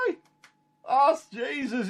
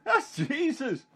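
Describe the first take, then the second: First: High, slow, amazed cry of recognition; wide-eyed, high and drawn-out; excited recognition. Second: High and slow again, full of wonder; excited recognition. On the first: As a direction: call it out, stunned to see him on the shore. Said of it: "he says". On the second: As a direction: say it with astonishment. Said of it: "he said". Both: Retold or imitated.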